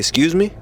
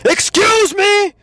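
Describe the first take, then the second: First: It is said smoothly at a projected, calm volume. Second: It is screamed very loudly. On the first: The speaker calls it right. "A nice, simple, smooth, suavemente" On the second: The speaker calls it wrong. "I'm not saying to scream it. Don't be like"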